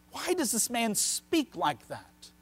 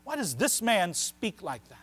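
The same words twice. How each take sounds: First: Slow question, leaning on "Why"; questioning scripture quote. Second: Emphasis on "this man" within the question; stress on THIS MAN. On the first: Preacher voices the scribes' question, slow and questioning. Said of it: "Notice how the emphasis". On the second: Preacher shows the scribes' emphasis, stressing "this man". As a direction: lean on the words "this man". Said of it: "Notice how the emphasis, that this man". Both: Shown as a demonstration.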